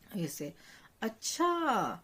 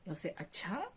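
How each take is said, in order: First: It sounds mocking and sarcastic. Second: It sounds questioning and unsure. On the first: The listener does not believe it. "it's a bit sarcastic as well" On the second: The listener doubts it and wants more. "it's like inquisitive and you're not really sure"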